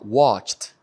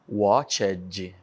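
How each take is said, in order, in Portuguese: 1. O final -ed é leve, sem vogal acrescentada. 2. O final -ed é pesado, com uma vogal pronunciada. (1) "Viu que é bem suave" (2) "para uma pronúncia muito forte, muito carregada, não"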